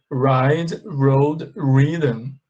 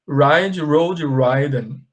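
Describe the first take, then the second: First: "ridden" with a short i, like "riddn"; correct pronunciation. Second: "ridden" said as "raiden", with the long i of ride; wrong pronunciation. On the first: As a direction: say "ridden" with the short i, not like "ride". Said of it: "in the past participle, you say re". (pronúncia correta de "ridden" com i curto) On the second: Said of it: "Tem gente que fala assim". (pronúncia errada de "ridden" como "ráiden") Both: Shown as a demonstration.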